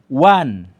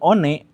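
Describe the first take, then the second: First: The word sounds like 'wan'. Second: The word sounds like 'o-ne'. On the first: This is how English speakers agree to read it. "Pak Guru dibacanya one" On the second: This follows the letters as they are written. "enggak ini one. Anda salah"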